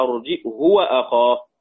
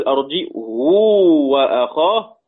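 First: "أرجئه وأخاه" with short "hu", no lengthening; short damma. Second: "أرجئه وأخاه" slow, with a greatly stretched "huu"; long damma. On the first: Teacher contrasting Abu Amr's reading, "أرجئه وأخاه" as arji'hu, short. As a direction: keep "hu" short after the hamza in "أرجئه وأخاه". بدون ضم بدون واو. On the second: Teacher contrasting Ibn Kathir's reading, "أرجئه وأخاه" as arji'huu, long. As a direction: draw out the "huu" after the hamza in "أرجئه وأخاه". ابن كثير بيقول. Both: Shown as a demonstration.

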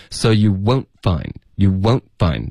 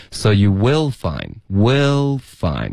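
First: "won't" cut off crisply before "find"; slow demo with a clear gap after "won't"; clean stop. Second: "will" running smoothly into "find"; slow, unbroken link from "will" to "find"; no stop after "will", glide straight on; connected flow. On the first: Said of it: "通过它的干脆的停顿". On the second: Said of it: "你听它是非常连贯的". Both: Shown as a demonstration.

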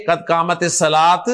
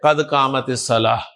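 First: الصلاۃ said as-salaat, ending on t; the wrong ending, a t on الصلاۃ; final t pronounced. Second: الصلاۃ said as-salaah, ending on h; slow, lower model phrase with h closing الصلاۃ; final h sound. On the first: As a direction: close الصلاۃ with an audible t. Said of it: "نہ کہ قد قامت الصلاۃ". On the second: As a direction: end الصلاۃ on h, not t. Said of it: "ہا کے ساتھ پروناؤنس کرے". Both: Shown as a demonstration.

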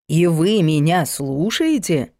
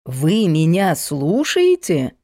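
First: Вы punched, the rest falling; «И вы меня слушаете?» with weight on вы; stress on вы. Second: «Вы меня слушаете?» with weight on слушаете; pompous exclamation. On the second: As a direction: stress on слушаете, slow and grand. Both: A narrator's reading. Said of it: "пафосно воскликнул Полунин".

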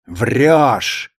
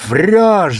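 First: «Врёшь!» твёрдо и ровно, без крика, с падением; спокойно и решительно «Врёшь!»; decisive. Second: «Врёшь!» выкрикнуто резко, громче и выше; рявкни «Врёшь!» во весь голос; shouted. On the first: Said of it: "повторил Василий Степанович решительно". («Врёшь!» как твёрдый приговор, не громко) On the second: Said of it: "закричал он так". (громкий окрик «Врёшь!») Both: A narrator's reading.

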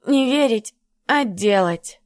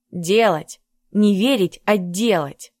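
First: Put-on slurred, tongue-tied drunk mumble; slurred drunken mumble. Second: Said in the usual way. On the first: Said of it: "заплетающимся языком пробормотала Натка".

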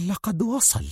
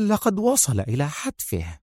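First: Higher, hushed thrill; softly breathing "وصل" with eager excitement; excited murmur. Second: Quietly relishing his doom; grim murmur. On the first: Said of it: "فانتفض جسد سونيا من فرط الانفعال وغمغمت". (غمغمة منفعلة) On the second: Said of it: "وغمغمت". (غمغمة متوعدة) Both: Acted.

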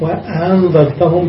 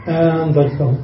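First: وأنذرتهم with the second hamza softened, slowly; وأنذرتهم with a smooth, eased middle. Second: أنذرتهم with both hamzas fully pronounced; أنذرتهم, both hamzas sharp; full hamza. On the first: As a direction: glide through the second hamza in وأنذرتهم, unhurried. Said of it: "بتسهيل الثانية". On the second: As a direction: say أنذرتهم with a clear glottal stop on each hamza. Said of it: "بتحقيق". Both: Shown as a demonstration.

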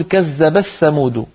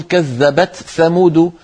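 First: Slow "كذبت ثمود" as kadhdhabath-thamūdu; t absorbed into a doubled th in "كذبت ثمود"; merged tā. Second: Slow "كذبت ثمود", t released before th; clear unmerged tā. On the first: Teacher giving second tribe's reading, "كذبت ثمود" merged. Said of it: "فتدغم التاء في الثاء". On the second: Teacher giving one tribe's reading, "كذبت ثمود" unmerged. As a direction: keep t and th separate in "كذبت ثمود". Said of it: "بإظهار التاء عند الثاء". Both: Shown as a demonstration.

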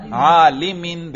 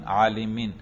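First: عالمین drawn out slowly and louder, sing-song, ending clearly -in; عالمین stretched, half sung, -in ending; genitive ending shown. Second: Said in the usual way. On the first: Shown as a demonstration. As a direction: chant عالمین slowly, landing on -in. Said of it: "جر". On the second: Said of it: "دیکھا تلفظ سے ہی اعراب کا پتہ چل رہا ہے".

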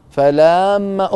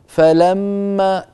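First: فلما with each short vowel dragged out far too long, slowly; wrong stretched vowels. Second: فلما with crisp short vowels, each given its measured length; correct short vowels. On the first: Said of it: "لا تقل فلما". (فلما بحركات ممطوطة خطأً) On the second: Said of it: "قل فلما". (فلما بحركات مضبوطة الزمن) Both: Shown as a demonstration.

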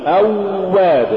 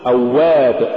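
First: أواب with a long droning و; overdone waw. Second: Said in the usual way. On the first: Shown as a demonstration. Teacher warning against exaggeration, overlong و in أواب. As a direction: drag out the doubled و in أواب. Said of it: "ولا تقل". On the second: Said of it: "قل".

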